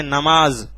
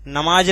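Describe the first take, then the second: First: नमाज ending in a buzzing z; nukta Z sound. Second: नमाज with a plain j sound at the end. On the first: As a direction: say नमाज with z, not j, at the end. (नमाज के अंत में नुक्ते वाला ज़) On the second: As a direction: say नमाज ending in j, without the nukta z. (नमाज के अंत में ज, बिना नुक्ते के) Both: Shown as a demonstration. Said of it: "नमाज नहीं बोलते".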